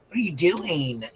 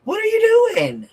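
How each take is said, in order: First: Said in the usual way. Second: Very high squealed "What are you doing?" with rising "you"; mock squeal. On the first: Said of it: "same words, second take". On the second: Shown as a demonstration. Streamer mocks someone in a very high squeal. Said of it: "same words, first take".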